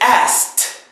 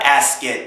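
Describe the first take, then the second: First: The ending is said as a t sound. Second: The ending is said as a separate ed. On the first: The speaker calls it right. "pretend that the ed is a T" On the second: The speaker calls it wrong. "It's not asked"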